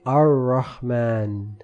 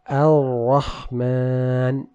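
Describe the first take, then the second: First: The R is made with the tongue curled back. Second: The R is made with the tongue tip forward. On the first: The speaker calls it wrong. "we don't say Ar-Rahman, where the tip is actually kind of rolling back" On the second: The speaker calls it right. "instead the tip should touch the gum line of the front incisors"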